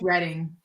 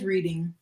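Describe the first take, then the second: First: The name has a different vowel, the local way. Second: The name is sounded out as it looks. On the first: The speaker calls it right. "No, it's Reading" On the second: The speaker calls it wrong. "It says Reading"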